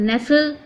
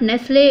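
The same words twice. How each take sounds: First: "nestle" said as "NESS-ul"; silent T. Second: "Nestle" said as "ness-lay" or with the middle consonants spelt out; T wrongly sounded. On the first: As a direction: say "nestle" with no T, ending in "-sul". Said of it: "it is nestle". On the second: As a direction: say "Nestle" like "nes-le". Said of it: "it is not Nestle". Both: Shown as a demonstration.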